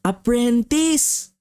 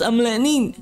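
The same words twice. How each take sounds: First: Apprentice, said slowly and clearly as ap-pren-tis; correct pronunciation. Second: Amretnin, mumbled with an m where the p should be; bee's garbled word. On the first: Shown as a demonstration. Kid decoding the bee's word, slow and careful. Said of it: "alam ko na". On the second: Retold or imitated. Kid repeating the bee's garbled apprentice, mock mumble. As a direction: repeat Amretnin as the bee mispronounced it.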